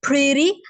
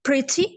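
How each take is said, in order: First: It is said in an American accent. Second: It is said in a British accent. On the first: "American accent में" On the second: "come to the British accent"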